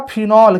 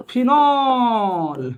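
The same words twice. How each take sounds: First: Said in the usual way. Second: "phenol" with a long, stretched last syllable; drawn-out pronunciation. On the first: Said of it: "सीधा सीधा बोलेंगे भैया". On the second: Shown as a demonstration. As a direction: stretch out the end of "phenol" for the class. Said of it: "मैंने भी बोल दिया". ("Phenol" को लंबा खींचकर बोलना)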